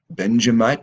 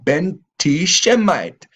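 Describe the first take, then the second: First: The middle of the name sounds like 'ja'. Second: The middle of the name sounds like 'tish'. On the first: This is how the rulers pronounce the name. The speaker calls it wrong. "They said Benj Benjamite" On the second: This is the original name of the tribe. The speaker calls it right.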